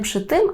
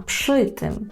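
First: The stress falls on the word tym. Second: The stress falls on the word przy. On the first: The speaker calls it wrong. "не пшитим" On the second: The speaker calls it right. "пши наголошуємо"

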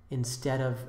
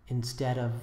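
Both takes have the same delivery.

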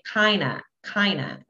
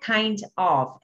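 First: The words blend into one reduced form, kinda. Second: Both words are pronounced fully and separately. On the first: The speaker calls it right. "é kinda" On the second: The speaker calls it wrong. "não é kind of"

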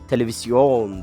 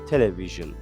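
First: It is said with a Turkish pronunciation. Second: It is said with an English pronunciation. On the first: The speaker calls it wrong. "Sakın bunu İngilizcesini Türkçesi gibi okumaya çalışma. Televizyon deme buna" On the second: The speaker calls it right. "Bunun İngilizcesi television'dır"

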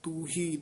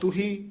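First: The vowel in the first word is long. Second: The vowel in the first word is short. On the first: "दूसरा है तू ही दलैंकड़ नाल" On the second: "एक पद है औंकड़ नाल तू ही"

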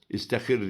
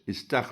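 First: An i follows the t, then another i. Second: A single a follows the t, then hr. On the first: The speaker calls it wrong. "İstihir diyenler var. ... Hepsi yanlış" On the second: The speaker calls it right. "İstahr olacak"

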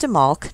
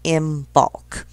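First: The B sound is silent. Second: The B sound is clearly pronounced. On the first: The speaker calls it right. "the B is actually silent and that it is Imbolc" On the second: The speaker calls it wrong. "not Imbolc"

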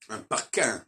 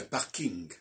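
First: The ending lacks a clear ng sound. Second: The ending has a clear ng sound. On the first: The speaker calls it wrong. "On ne dit pas un parking" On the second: The speaker calls it right. "on dit un parking"

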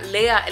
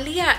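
First: The first vowel sounds like 'e'. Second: The first vowel sounds like 'i'. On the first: The spelling with H led people to say it this way. The speaker calls it wrong. "todo el mundo lo pronuncia como Lea" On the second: This is how the owner wants the name said. The speaker calls it right. "Mi hija se llama Lía"

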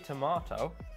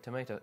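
First: It is said with a British accent. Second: It is said with an American accent. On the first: "I say" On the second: "You say you say"

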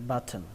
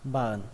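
First: The T sound in the middle is pronounced. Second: The T sound is dropped, ending in a nasal. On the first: "sau này là âm turn hoặc là âm thần" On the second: "các bạn có thể bỏ luôn âm T ở đây và coi như không có âm T và kết thúc bằng âm ờn luôn"

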